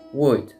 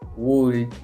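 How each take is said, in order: First: The letters O and L are silent. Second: The letters O and L are sounded. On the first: The speaker calls it right. "la manera correcta de pronunciarlo es would ... como si no existiera ni la O ni la L" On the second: The speaker calls it wrong. "no vamos a decir cosas como would"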